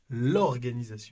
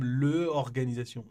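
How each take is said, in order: First: The L is joined onto the word. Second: The L is said apart from the word. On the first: The speaker calls it right. "C'est comme si le L était collé au mot" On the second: The speaker calls it wrong. "On ne dit pas"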